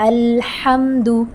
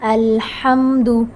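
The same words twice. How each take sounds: The two takes are said the same way.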